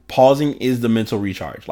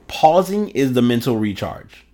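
First: Pausing is the mental recharge, each word given weight; emphasized restatement. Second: Said in the usual way. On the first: Shown as a demonstration. Podcaster repeating his key point to listeners, emphatic. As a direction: lean on Pausing and recharge, deliberately. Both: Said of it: "let me emphasize that".

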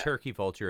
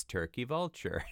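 First: Said in the usual way. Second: Imitating a baby's slightly off "turkey vulture"; "turkey vulture" in a mildly mispronounced baby-talk accent; slightly wrong accent. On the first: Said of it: "instead of turkey vulture". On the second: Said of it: "just the slightly wrong accent".

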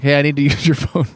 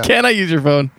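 First: Matter-of-fact mock demand; imitated blunt demand. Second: Mock polite request. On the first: Stranger walking up to demand a phone, imitated blunt demand. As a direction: state it as an entitled demand, mimicking. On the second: What the stranger should have asked, mock polite request. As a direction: pitch it up as a pretend courteous ask. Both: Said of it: "the energy of walking up and just being like".

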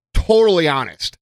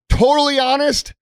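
First: Said in the usual way. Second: Totally pitched much higher with stress on Totally; emphatic repeat. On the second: Shown as a demonstration. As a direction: say it again and lift Totally.

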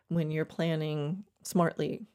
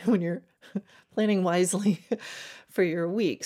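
First: Said in the usual way. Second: Laughing through the words; chuckling while correcting herself. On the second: Real, not acted. Coach laughs at her own wording.

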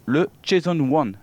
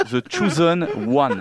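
First: "Jason One", the English nickname run together with French "le"; misheard nickname. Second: "The Chosen One" slowly, each word separated; corrected English pronunciation. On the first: Real, not acted. Host introducing the player's nickname, "Jason One" loosely pronounced. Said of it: "Je croyais que c'était". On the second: Shown as a demonstration. Host correcting the joke about a Chinese nickname, careful pronunciation.

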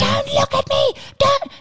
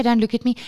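First: High-pitched screaming tantrum; shrill little-kid meltdown; angry toddler yell. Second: Said in the usual way. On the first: Retold or imitated. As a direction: imitate a furious small child screeching. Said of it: "He's yelling, like, angry, angry, angry". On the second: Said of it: "No, no, he doesn't say".

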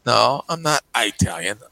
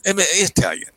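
First: Italian said with a long eye sound; Italian starting eye-tal; Italian as eye-talian; wrong pronunciation. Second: Italian with a short I, set higher; Italian starting it-tal; correct pronunciation. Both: Shown as a demonstration. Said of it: "I say".

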